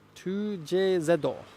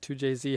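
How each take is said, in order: First: The letter Z is said as 'zeddo'. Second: The letter Z is said the English way. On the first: "Here in Japan, you would say two J Z, because Z is pronounced Zeddo" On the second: "however you want to pronounce it"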